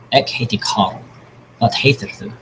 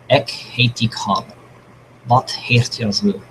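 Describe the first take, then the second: First: It is said at a normal pace. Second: It is said more slowly.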